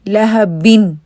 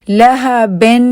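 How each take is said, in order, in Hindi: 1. 'n' से पहले का स्वर लंबे 'ee' जैसा सुनाई देता है। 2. 'n' से पहले का स्वर 'e' जैसा सुनाई देता है। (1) "ई ई के साथ फिर आपने इन की आवाज लगा लेनी है" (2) "लहबिन नहीं है"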